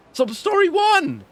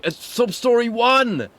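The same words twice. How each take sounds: First: Much higher, slow excited yell; squealing hype call. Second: Drawn-out hype call; excited announcer. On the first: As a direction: shout it like a game show. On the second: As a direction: announce it like a big reveal. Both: Acted.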